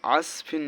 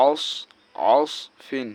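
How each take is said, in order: First: "আসফিন" with a thin, light s; common mispronunciation. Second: "আসফিন" with a thick, heavy Arabic sad; heavy sad sound. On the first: Teacher showing learners what many say, mispronounced "আসফিন" with a light s. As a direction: say "আসফিন" with an ordinary light s, not the heavy sad. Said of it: "এটা অনেকে". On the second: Teacher correcting learners on the letter sad, heavy s in "আসফিন". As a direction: make the s of "আস" full and emphatic, as in Arabic sad. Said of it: "সেহেতু মোটা হবে". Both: Shown as a demonstration.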